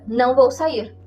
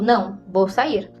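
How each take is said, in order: First: There is no pause after the first word. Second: There is a pause after the first word. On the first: The person is not going out. "Parece que você não vai sair" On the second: It declines something, then says the person is going out. "você sugere aqui que tem uma vírgula"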